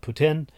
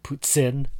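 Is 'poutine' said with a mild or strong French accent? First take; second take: mild; strong. First: It is said with a mild French accent. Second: It is said with a strong French accent. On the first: "They call it" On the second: "that's too French"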